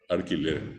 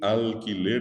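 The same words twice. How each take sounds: First: The first syllable ends in an r sound. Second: The first syllable ends in a clear l sound. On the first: The speaker calls it wrong. "dice ar, ar" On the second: The speaker calls it right. "en vez de decir alquiler"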